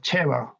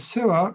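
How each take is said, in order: First: The name begins with a ch sound. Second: The name begins with an s sound. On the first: "it says something like Chiva or Cheva" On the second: "I pronounce it as Seva"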